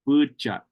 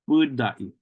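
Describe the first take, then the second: First: The second syllable starts with a ch sound. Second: The second syllable starts with a d sound. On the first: "they pronounce this D more like a ch, ch sound" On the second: "that first syllable is lengthened"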